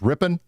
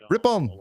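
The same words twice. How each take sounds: First: The name is said with a plain American pronunciation. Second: The name is said with a French-style pronunciation. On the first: The speaker calls it right. "It's just Ripon" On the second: The speaker calls it wrong. "I want to be super French about it. I want to say Ripon"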